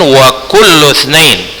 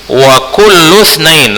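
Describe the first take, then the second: First: Itsnain starts with its own separate i sound. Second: Kullu runs straight into itsnain without an i. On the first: The speaker calls it wrong. "Seharusnya ini bukan hamzah qat'i tapi hamzah wasal" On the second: The speaker calls it right. "Langsung setelah kullu langsung lu-nya dimasukkan ke huruf tsa"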